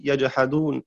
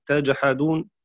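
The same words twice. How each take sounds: First: يجحدون starting with y, yajḥadūn; يجحدون read yajḥadūn, with ya; yajhadun with ya. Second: تجحدون starting with t, tajḥadūn; تجحدون read tajḥadūn, with ta; tajhadun with ta. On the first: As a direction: say يجحدون with a clear opening y. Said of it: "بالياء". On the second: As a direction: say تجحدون with a clear opening t. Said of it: "بالتاء". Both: Shown as a demonstration.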